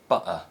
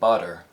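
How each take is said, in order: First: The t is a glottal stop. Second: The t is a quick tap. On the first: The speaker sounds British. "replaced by a glottal stop sound in the U K" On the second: The speaker sounds American. "a tapped sound in the U S"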